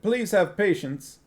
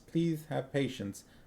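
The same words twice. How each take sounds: First: It is spoken plainly, without a lisp. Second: It is spoken with a slight lisp. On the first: The speaker calls it wrong. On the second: The speaker calls it right.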